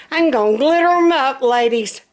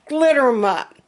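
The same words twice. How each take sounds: First: Excited. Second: Said in the usual way. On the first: Real, not acted. Joking about decorating pull-ups.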